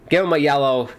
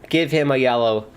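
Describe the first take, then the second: Both takes have the same delivery.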